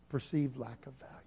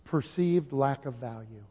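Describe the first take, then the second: First: Much softer, letting it sink in; soft echo. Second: Said in the usual way. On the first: Acted. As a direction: repeat it almost under your breath. Repeating the key answer softly.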